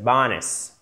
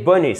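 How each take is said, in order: First: "bonus" stressed on the first syllable, weak ending; English "bonus", falling away after the first syllable; English pronunciation. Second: "bonus" said the French way, with French u; French-sounding "bonus", evenly stressed; French pronunciation. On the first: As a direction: hit "bo" in "bonus" and reduce the rest. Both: Shown as a demonstration. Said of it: "c'est bonus".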